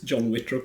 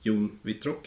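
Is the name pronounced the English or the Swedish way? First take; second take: English; Swedish. First: The name is pronounced with English sounds. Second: The name is pronounced with Swedish sounds. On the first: "if you want to go with the English pronunciation" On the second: "in Swedish"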